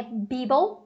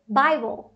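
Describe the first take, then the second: First: "Bible" misread as BEE-bol; wrong "bi" vowel. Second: "Bible" said BAI-bol; correct AI vowel. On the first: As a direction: say "Bible" with an EE first syllable. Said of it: "Então não é bi". ("Bible" errado, lido BÍ-bol) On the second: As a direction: say "Bible" with AI after the B. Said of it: "tem um A I ali depois do B". ("Bible" correto, BÁI-bol) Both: Shown as a demonstration.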